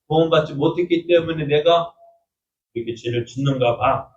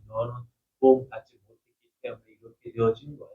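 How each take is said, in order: First: Mild, dejected admission; resigned self-doubt. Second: Low, hushed tempter's voice; a lightly voiced devil murmuring doubt; devil's whisper. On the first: Retold or imitated. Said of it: "생각을 합니다". (조금 풀죽은 자책) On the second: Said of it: "하고 계속 푹푹 찌를 때". (낮고 조용한 마귀의 속삭임)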